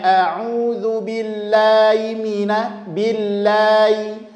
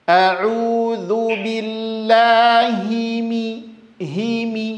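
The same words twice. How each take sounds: First: Billahi with the i swallowed; slurred kasrah. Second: Very slow billahi mi with every i clear; clear kasrah. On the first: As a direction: mumble through billahi mina. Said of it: "tidak jelas haknya". (billahi dengan kasrah tidak jelas) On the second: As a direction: draw out billahi mi, each i full. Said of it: "harokatnya kasroh". (billahi mi lambat, kasrah jelas) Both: Shown as a demonstration.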